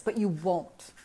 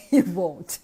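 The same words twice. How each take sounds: First: Said in the usual way. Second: "You won't" repeated louder, leaning on "You"; emphatic repeat. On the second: Real, not acted.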